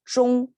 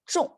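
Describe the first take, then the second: First: The pitch stays level on the syllable. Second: The pitch falls sharply on the syllable. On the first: It means fitting or within. "in this pronunciation" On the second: It describes an action: hitting the spot. "we used 中 in the falling tone"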